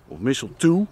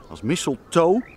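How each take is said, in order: First: "mistletoe" ending in an oo sound; alternative pronunciation. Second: "mistletoe" ending in an oh sound; alternative pronunciation. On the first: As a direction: say "mistletoe" to rhyme with "too". ("mistletoe" uitgesproken met een oe-klank aan het eind) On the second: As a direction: say "mistletoe" to rhyme with "toe". ("mistletoe" uitgesproken met een oo-klank aan het eind) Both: Shown as a demonstration. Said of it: "ik weet niet hoe je dat uitspreekt".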